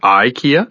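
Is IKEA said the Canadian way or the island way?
Canadian. It is said the classic Canadian way. "the classic Canadian pronunciation"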